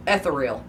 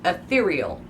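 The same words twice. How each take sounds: First: Ethereal as ETH-er-eel; misreading. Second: Ethereal as uh-THEER-ee-ul; correct pronunciation. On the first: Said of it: "That's how I see it". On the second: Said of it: "Nope, in writing". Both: Shown as a demonstration.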